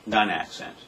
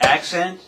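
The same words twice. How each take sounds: First: "non-accent" let fall, unpunched; unaccented. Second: ACCENT punched high and rising. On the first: Drum teacher repeating the unaccented example, let fall. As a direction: drop "non-accent" back down with a falling end. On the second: Drum teacher repeating the accented example, punched high. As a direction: hit "Accent" higher, lifting at the end. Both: Shown as a demonstration. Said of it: "For example".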